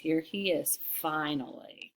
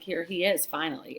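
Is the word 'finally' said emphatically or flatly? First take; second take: emphatically; flatly. First: The word finally is said with strong emphasis. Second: The word finally is said flatly, without emphasis. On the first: The speaker calls it right. "It's slanted" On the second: The speaker calls it wrong. "it's not like"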